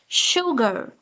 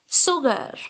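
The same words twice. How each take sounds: First: The word begins with a 'sh' sound. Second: The word begins without a 'sh' sound. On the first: The speaker calls it right. "It's sha sound" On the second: The speaker calls it wrong. "It's not sugar"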